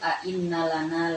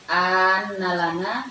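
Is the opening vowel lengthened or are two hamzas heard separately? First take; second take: separate; lengthened. First: Both glottal stops are pronounced separately. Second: The second glottal stop is dropped, vowel lengthened. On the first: "bisa a'innalana" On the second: "bisa hamzah yang kedua tidak dibaca ya, bisa di uh, apa dipanjangkan annalana"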